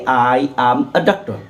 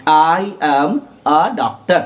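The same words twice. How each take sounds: First: I am a doctor with a as a short uh. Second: Very slow I am a doctor with a as a short uh; drawn out, each word apart, a as uh. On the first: Teacher shows how a is pronounced, with a as uh. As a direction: say a as uh, not ay, in I am a doctor. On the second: Teacher repeats the pronunciation slowly for learners. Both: Shown as a demonstration. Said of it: "उसका उच्चारण अ होता है".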